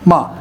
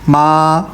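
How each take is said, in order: First: The pitch drops sharply from high to low. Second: The pitch stays high and level throughout. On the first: "तलवार की तरह ऐसे यकदम ... फाइव से आ जाती है सीधा टू की तरफ या वन की तरफ" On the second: "फाइव को फाइव से कनेक्ट करूंगा ना, तो ये स्ट्रेट हो जाएगी"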